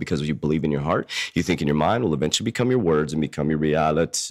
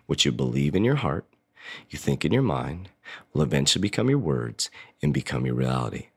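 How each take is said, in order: First: It is said at a faster pace. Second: It is said at a slower pace.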